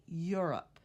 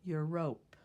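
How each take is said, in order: First: "Europe" said as "YUR-up", the O almost gone; "Europe" with a weak, swallowed second vowel; reduced O. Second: "Europe" said as "your-rope", full long O in the second syllable; "Europe" with the O fully sounded, like "yoo-ROPE"; spelling pronunciation. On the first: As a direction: let the end of "Europe" shrink to "up". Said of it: "but in fact we say". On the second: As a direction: give "Europe" a clear "rope" ending, loud. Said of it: "This looks like it should be said". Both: Shown as a demonstration.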